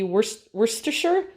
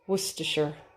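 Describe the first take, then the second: First: The word is said long, with every written syllable. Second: The word is said short, with syllables dropped. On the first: The speaker calls it wrong. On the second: The speaker calls it right. "it looks like it should be way longer, but that's what it is"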